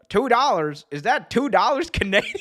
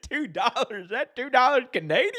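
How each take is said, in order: First: Higher mocking announcer; JR quote. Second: Higher, cracking up mid-line; JR quote laughing. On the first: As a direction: deliver the sarcastic zinger. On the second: Retold or imitated. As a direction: repeat the zinger through laughter. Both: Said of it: "It's like".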